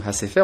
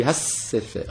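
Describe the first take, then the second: First: Hasefer with a single light s, no stress on the first syllable; the incorrect form, Hasefer said smoothly; wrong pronunciation. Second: Hassefer with a doubled, lengthened s and the first syllable stressed; the correct form, stressing Ha and doubling the s; correct pronunciation. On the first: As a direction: say Hasefer the wrong way, s not doubled. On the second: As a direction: lean on Hassefer, holding the ss before sefer. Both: Shown as a demonstration. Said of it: "il faut donc insister sur la première syllabe".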